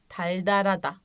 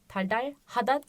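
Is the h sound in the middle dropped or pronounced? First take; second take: dropped; pronounced. First: The middle h sound is dropped entirely. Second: The middle h sound is clearly pronounced. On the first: The speaker calls it right. "Bunlar okunuşları arkadaşlar" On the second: The speaker calls it wrong. "Teldarhada değil"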